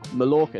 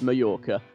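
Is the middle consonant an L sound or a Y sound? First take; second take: L sound; Y sound. First: The middle consonant is an L sound. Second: The middle consonant is a Y sound. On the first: The speaker calls it wrong. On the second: The speaker calls it right.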